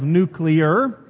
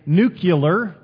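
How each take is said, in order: First: The word ends like nuclear. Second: The word ends like nucular. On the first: The speaker calls it right. "instead of nuclear" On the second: The speaker calls it wrong. "Sometimes we say nuclear"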